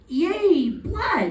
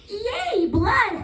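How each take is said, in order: First: It sounds clearly more excited. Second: It sounds wildly excited, like evil Elmo.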